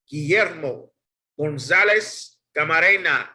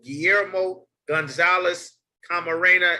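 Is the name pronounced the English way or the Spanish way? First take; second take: Spanish; English. First: The name is pronounced with Spanish sounds. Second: The name is pronounced with English sounds.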